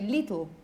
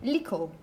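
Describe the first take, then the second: First: The middle consonant is a clear 't'. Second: The middle consonant sounds like a 'k'. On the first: "she doesn't say little" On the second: "She says something like lickle"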